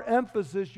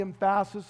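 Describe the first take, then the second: First: Said in the usual way. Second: "emphasis" stressed on its middle syllable, em-FA-sis; misplaced word stress. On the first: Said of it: "you have the emphasis on the wrong syllable". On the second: Shown as a demonstration. Preacher joking about misplaced priorities, "emphasis" said em-FA-sis. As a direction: joke mispronunciation, "emphasis" as em-FA-sis. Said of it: "the emphasis on the wrong syllable".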